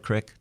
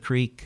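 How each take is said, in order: First: It has a short 'i' vowel, local valley form. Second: It has a long 'ee' vowel, standard form.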